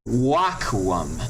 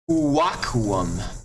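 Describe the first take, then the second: First: It begins directly with a w sound. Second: It begins with an 'oo' vowel before w. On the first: This is the later form of the word. "with time it became wakuum" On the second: This is the older form of the word. "U in ancient times was originally a uwa"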